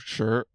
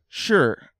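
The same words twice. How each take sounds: First: The pitch rises across the syllable. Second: The pitch falls sharply across the syllable. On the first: It means lion or rock. "I think it's second tone" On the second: It means 'is'. "fourth tone, uh, is means is"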